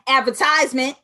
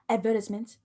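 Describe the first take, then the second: First: It is said with an American pronunciation. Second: It is said with a British pronunciation. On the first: "as Americans say" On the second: "Since we're in the U K"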